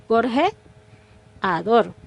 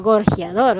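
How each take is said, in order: First: Gorjeador drawn out very slowly with the e and a in separate syllables; vowels split apart. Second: Gorjeador with the e and a merged into one glide, like gorjiador; vowels joined. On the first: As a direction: say gorjeador syllable by syllable, gor-je-a-dor. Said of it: "tendría que haberle hecho yo la separación de la E y la A". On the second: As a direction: run the e into the a in gorjeador as one syllable. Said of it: "allí sí puedo". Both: Shown as a demonstration.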